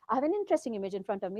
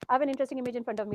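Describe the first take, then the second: First: It is said with pitch going up and down. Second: It is said fast in a flat, even tone. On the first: The speaker may seem not fluent. The speaker calls it wrong. "I can put the annotation ... like an up and down" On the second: The speaker sounds fluent to the computer. The speaker calls it right. "when I say it fast, ... it's a flat, boring tone"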